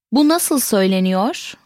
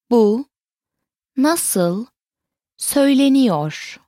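First: Said in the usual way. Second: "Bu", "nasıl", "söyleniyor", each set apart; word by word. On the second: Shown as a demonstration. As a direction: pause after "Bu" and after "nasıl". Teacher repeats it word by word.

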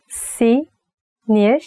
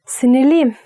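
First: "Sinirliyim" said slowly, vowel by vowel; slow and split. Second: Said in the usual way. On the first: Shown as a demonstration. Teacher showing an angry slowed "Sinirliyim". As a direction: stretch "Sinirliyim" apart to sound upset. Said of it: "divide it to the vowels, and you can say it slowly". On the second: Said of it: "you can say it slowly".

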